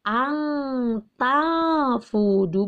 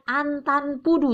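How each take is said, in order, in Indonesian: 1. Bunyi n berubah menjadi ng yang lembut. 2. Bunyi n dibaca dengan jelas. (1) "berubah jadi eng ya" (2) "Jadi dibacanya jangan"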